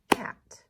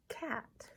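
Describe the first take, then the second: First: "Cat" as one loud, short beat; "Cat" punched hard as one syllable; single clapped syllable. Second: Said in the usual way. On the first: Shown as a demonstration. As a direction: clap out "Cat" in a single strong hit. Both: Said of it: "One syllable for cat".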